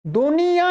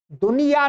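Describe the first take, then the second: First: "दुनिया" higher, with nasalised final -yaan; nasal ending. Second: "दुनिया" with a purely oral final -yaa; oral ending, no nasal. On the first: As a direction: nasalise the last vowel of "दुनिया". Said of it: "दुनिया ही बोलते हैं". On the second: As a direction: say "दुनिया" without nasalising its last vowel. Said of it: "दुनिया नहीं बोलते". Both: Shown as a demonstration.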